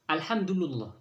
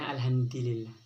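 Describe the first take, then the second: First: The l takes a u vowel, like the d. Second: The d takes an i vowel, like the l. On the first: "Wa bil aksi dibaca alhamdulillah" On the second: "dibaca alhamdulillah ... ad-dalnya dibaca di"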